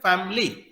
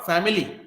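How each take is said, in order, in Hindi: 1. बीच का स्वर पूरी तरह छोड़ दिया जाता है। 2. बीच का स्वर पूरी तरह उच्चारित होता है। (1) "हम सीधा कर रहे हैं" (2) "नॉट"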